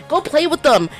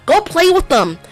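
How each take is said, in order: Both takes have the same delivery.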